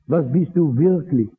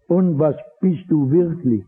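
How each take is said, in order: First: "du" pointed at, the question turned to the listener; stress on du. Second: "bist" leaned on as the key word; stress on bist. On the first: Preacher repeating the question, pressing on "du". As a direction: ask it again, now pressing on "du". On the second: Preacher asking the listener, pressing on "bist". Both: Shown as a demonstration.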